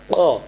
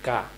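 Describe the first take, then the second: First: "ক" from the throat, rounded vowel; heavy qaf. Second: "কা" with front k, open a; light kaf. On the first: Teacher corrects pupils, "ক" heavy and rounded. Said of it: "তাহলে এটা তো কফ". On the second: Teacher contrasts two letters, "কা" light and open. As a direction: say "কা" thin and open. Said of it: "কাফ জবর". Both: Shown as a demonstration.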